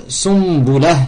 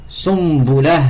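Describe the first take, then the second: No difference in how they are said.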